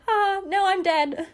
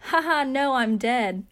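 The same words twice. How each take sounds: First: Much higher and louder, cracking up mid-quote; laughing joke. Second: Louder, higher mock-cheery delivery of a dark joke; sarcastic joke. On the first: Retold or imitated. Retelling her text to the audience, laughing hard. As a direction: squeal it through laughter at her own dark joke. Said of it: "I just said". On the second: To her worried suite mate, a flippant sarcastic joke. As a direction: toss it off like a flippant text. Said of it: "joke about the fact and just say".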